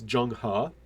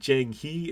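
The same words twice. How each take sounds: First: The vowel in 'He' is an 'uh' sound. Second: The vowel in 'He' is not an 'uh' sound. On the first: The speaker calls it right. "E's a lot of times in Chinese are pronounced like an uh" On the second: The speaker calls it wrong. "it's not Zheng He"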